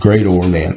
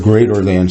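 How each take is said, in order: First: The word greater is said with a clear separate or. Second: The word greater is said with a reduced ending.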